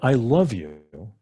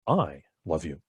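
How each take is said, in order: First: The stress is on "love". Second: The stress is on "I".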